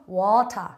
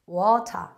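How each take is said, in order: The two takes are said the same way.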